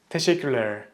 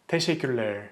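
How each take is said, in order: The two takes are said the same way.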